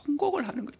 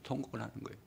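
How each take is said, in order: First: 통곡을 leaps up high, falling away after; preacher's high lament on 통곡을; high cry. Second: Hushed echo after the cry; soft repeat. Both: Shown as a demonstration.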